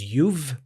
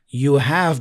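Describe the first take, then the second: First: It is said as one contracted word. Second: It is said as two full words.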